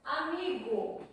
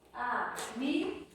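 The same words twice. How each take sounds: First: Said in the usual way. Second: "amigo" split into a, mi, go with gaps; syllable by syllable. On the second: Shown as a demonstration. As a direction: count out "amigo" in three slow beats. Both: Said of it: "Vamos separar as sílabas?".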